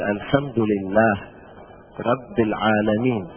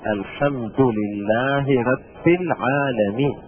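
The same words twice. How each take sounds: First: Word endings are said without their case vowels. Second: Word endings are said with their case vowels. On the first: The speaker calls it wrong. "يعني بالتسكين" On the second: The speaker calls it right. "لابد ان نقول"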